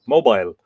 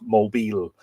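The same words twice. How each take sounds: First: It is said with a European pronunciation. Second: It is said with an American pronunciation. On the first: "whereas we say" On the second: "the Americans say this is"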